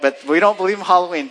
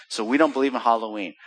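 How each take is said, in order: First: "don't believe" said louder and faster, insisting; emphatic restatement. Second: Said in the usual way. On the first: Shown as a demonstration. Preacher insists to the congregation, louder, quicker "don't believe". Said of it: "So, but".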